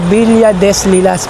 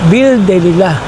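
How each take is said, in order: First: It is read letter by letter, as spelled. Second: It is said the French way, endings silent. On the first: "kung babasahin mo" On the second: "Pero kung ang pronunciation is"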